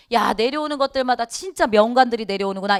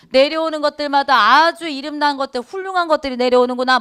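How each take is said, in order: First: Said in the usual way. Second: Higher, louder, mockingly ironic praise; sarcastic irony. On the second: Shown as a demonstration. Chunhyang mocking the new officials with ironic praise. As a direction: sneer out the praise so it means the opposite. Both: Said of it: "이렇게 얘기해야 돼요".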